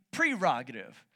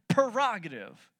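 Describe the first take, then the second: First: Prerogative said "pree-ROG-ative"; correct pronunciation. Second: Prerogative said "per-ROG-ative"; wrong pronunciation. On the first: Preacher correcting the congregation, prerogative as "pree-ROG-ative". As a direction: start prerogative with a clear "pree". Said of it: "The way you say it is". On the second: Preacher confessing how he said it, prerogative as "per-ROG-ative". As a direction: start prerogative with "per", not "pre". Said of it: "I was saying it wrong". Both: Shown as a demonstration.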